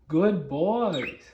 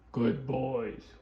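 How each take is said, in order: First: The pitch is raised and rising. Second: The pitch is low and flat.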